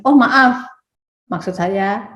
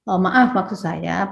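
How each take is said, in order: First: Startled apology mid-sentence; quick self-correction. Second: Slower, easy "Oh maaf, maksud saya"; relaxed polite apology; calm self-correction. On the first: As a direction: blurt out the apology as if you just noticed the mistake. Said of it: "misalkan Anda ngomong". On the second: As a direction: correct yourself unhurried, almost offhand. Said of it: "kalau Anda berbicara salah langsung". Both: Retold or imitated.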